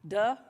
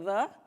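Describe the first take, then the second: First: The word begins with a d sound. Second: The word begins with a th sound.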